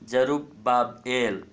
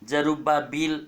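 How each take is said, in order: First: The name ends with an 'el' sound. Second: The name ends with an 'eel' sound. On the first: The speaker calls it right. "तो जरुब्बाबेल बोलना चाहिए" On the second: The speaker calls it wrong. "जरुब्बाबील नहीं बोल सकते हम"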